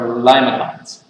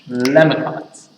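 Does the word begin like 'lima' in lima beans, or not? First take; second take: like lima; not lima. First: The first syllable sounds like 'lima' in beans. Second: The first syllable does not sound like 'lima'.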